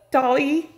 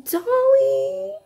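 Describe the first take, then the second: First: Said in the usual way. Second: Name cried out high in delight; thrilled squeal of a name; excited gasp of a name. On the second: Real, not acted. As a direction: call her name in sudden delight, pitched way up. Gasps at the gift.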